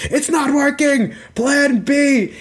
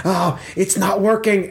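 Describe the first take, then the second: First: Very high, urgent cry; hammed-up alarm in a high strained pitch; panicked exclamation. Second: Higher voice, restrained dismay; a touch of worry, not raised in volume; wide-eyed alarm. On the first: Crinkle Lightfoot looking down into the stage, high panicked call. Plotter panics, switches to backup. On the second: Acted. Crinkle Lightfoot looking at the adventurer, mild higher-pitched alarm. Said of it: "eyes are wide. He's such, like".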